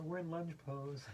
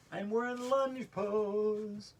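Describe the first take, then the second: First: Said in the usual way. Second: Slow, stretched singsong, higher and louder; drawn-out announcement. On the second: Shown as a demonstration. Yoga teacher announcing the lunge pose, drawn out. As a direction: draw out "lunge pose" on held notes.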